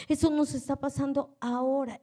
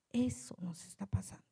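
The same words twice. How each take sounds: First: Said in the usual way. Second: Eso nos está pasando whispered, hushed, low; whispered aside before saying it aloud. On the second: Acted. Whispered, then repeated aloud.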